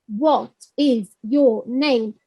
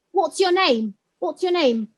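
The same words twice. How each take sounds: First: Slow, lower, each word on its own; greenhouse language. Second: "What's your name" run together as one phrase; contracted forms. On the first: Teacher imitating controlled coursebook language, slow and separated. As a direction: say "What is your name" word by word, fully uncontracted. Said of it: "It's like in a greenhouse". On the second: Teacher showing what learners hear outside, natural contracted "What's your name". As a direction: join "What's your" smoothly, as in street talk. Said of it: "What they'll hear is contracted forms". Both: Shown as a demonstration.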